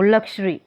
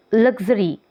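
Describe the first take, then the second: First: "लग्जरी" said as luk-shree, with k-sh for x; k-sh sound. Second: "लग्जरी" with a buzzed g-z in the middle; voiced x sound. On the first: Teacher showing which sounds x represents, k-sh pronunciation. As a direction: put a hushed sh after k in "लग्जरी". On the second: Teacher giving an x-word example, voiced gz sound. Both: Shown as a demonstration. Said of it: "इसमें क और श को".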